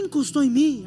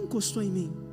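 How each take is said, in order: First: The question sounds irritated and stressed. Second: The question sounds calm and gentle. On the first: The speaker is annoyed at being touched. The speaker calls it wrong. "meu cortisol está alto, eu estou estressado" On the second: The speaker is kindly asking who touched him. The speaker calls it right. "Não. Jesus falou assim"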